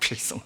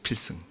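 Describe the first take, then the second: First: The second syllable ends in an 'ong' sound. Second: The second syllable ends in an 'eung' sound. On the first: "발음 이상하게 돼서 필송 뭐 이렇게 이상한 발음도 나옵니다" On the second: "뭐라 그러냐면 필승 합니다"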